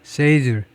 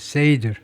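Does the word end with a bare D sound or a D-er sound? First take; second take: bare D; bare D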